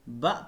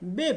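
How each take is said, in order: First: The letter is read with a short 'a' vowel. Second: The letter is read with an 'e' vowel. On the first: The speaker calls it right. "इसको हम ब पढ़ेंगे" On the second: The speaker calls it wrong. "आमतौर पर उर्दू या पंजाबी में हम इसे बे पढ़ते हैं"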